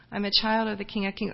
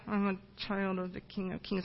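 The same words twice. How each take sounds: First: A bit more audible, still restrained; slightly louder repeat. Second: Very soft, low-key mumble; timid first answer. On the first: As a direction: repeat it a little more clearly. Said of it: "louder and louder and louder". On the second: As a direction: mumble it shyly, barely audible. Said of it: "I make her say it louder". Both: Retold or imitated.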